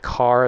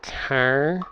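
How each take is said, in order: First: It is said in a standard accent. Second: It is said in a Minnesota accent.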